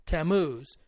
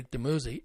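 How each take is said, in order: First: Tammuz in two syllables, ta-MOOZ; corrected pronunciation. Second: Damuzi said as spelled, ending in a zee sound; spelling pronunciation. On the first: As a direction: say Tammuz with no final vowel. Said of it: "It's actually pronounced Tammuz". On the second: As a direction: say Damuzi in three syllables, da-MOO-zee. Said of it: "it's not really Damuzi". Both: Shown as a demonstration.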